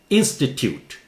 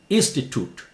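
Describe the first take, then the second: First: The last syllable sounds like 'tyoot'. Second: The last syllable sounds like 'toot'. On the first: "British. Tute" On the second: "American. Toot"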